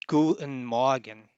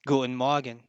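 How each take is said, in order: First: It is said slowly. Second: It is said at normal speed.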